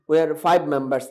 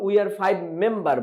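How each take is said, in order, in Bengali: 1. শেষ শব্দটি s ধ্বনিতে শেষ হয়। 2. শেষ শব্দটি s ধ্বনিতে শেষ হয় না।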